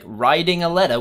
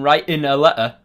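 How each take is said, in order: First: The T sounds are said like soft D sounds. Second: The T sounds are left out entirely. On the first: "with D's" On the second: "without saying the T's at all"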